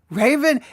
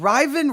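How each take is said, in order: First: The first vowel is a long 'ay' sound. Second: The first vowel is a short 'i' sound. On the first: The speaker calls it wrong. "I want to say Raven Lene" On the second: The speaker calls it right. "but it's kind of Riven"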